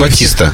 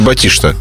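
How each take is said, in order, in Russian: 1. Средний согласный — обычный звук 's'. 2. Средний согласный — звук 'sh'. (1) "Батиста по-испански" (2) "Батишта это по-португальски"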